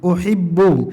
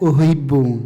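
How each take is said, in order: First: The h is a tight, raspy throat sound. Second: The h is a soft, light breathy sound. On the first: The speaker calls it right. "Kalau ha contohnya uhibbu" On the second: The speaker calls it wrong. "Jangan dibaca uhibbu"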